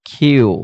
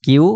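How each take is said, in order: First: "কিউ" with a puff of air after the k; aspirated Q. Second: Said in the usual way. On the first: Shown as a demonstration. Teacher correcting the old habit, "কিউ" said with aspirated kh. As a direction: breathe out on the k, making "কিউ" khyu. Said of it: "but এটা হবে কিউ". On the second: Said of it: "এটাকে আমরা বলতাম কিউ".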